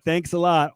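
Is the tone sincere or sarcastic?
sincere. It sounds sincerely grateful.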